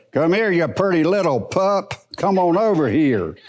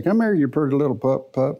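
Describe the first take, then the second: First: Same words in a firmer, sterner spirit; different spirit. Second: Sweet, coaxing talk to a puppy. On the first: Preacher calling the same dog in a sterner spirit. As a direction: call the pup without the sweetness. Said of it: "but it's a different spirit". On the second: Preacher showing how to call a little dog, sweetly coaxing. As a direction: coax the little pup in sweetly. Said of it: "and just talk real sweet". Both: Shown as a demonstration.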